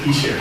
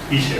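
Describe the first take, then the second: First: The middle consonant is a soft 'sh' sound. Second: The same.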